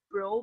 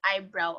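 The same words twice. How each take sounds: First: "bro" said alone without the "eye" sound, low; wrong short bro. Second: "eyebrow" said in full with the "eye" sound, falling; correct eyebrow. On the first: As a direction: drop the "eye" and say just "bro". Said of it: "but eyebrow". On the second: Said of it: "will still say bro". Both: Shown as a demonstration.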